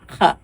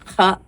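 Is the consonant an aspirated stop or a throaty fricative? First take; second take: throaty fricative; throaty fricative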